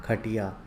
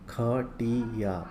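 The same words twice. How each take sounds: First: Said in the usual way. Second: Slow ख-टी-या; syllable by syllable. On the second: Shown as a demonstration. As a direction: read खटिया out in separate long syllables. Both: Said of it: "पहले पढ़ लेते हैं".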